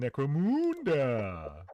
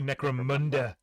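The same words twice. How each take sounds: First: The 'mun' has the vowel of 'moon'. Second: The 'mun' has the vowel of 'under'. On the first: The speaker calls it wrong. "in Canada, it takes place on the moon" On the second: The speaker calls it right. "I guess I'm supposed to say Necromunda, like under, down under"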